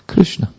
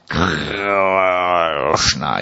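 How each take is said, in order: First: The R sound is light and short. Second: The R sound is heavy and strong. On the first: The speaker calls it right. "just like that" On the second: The speaker calls it wrong. "Like the Germans always put too much R"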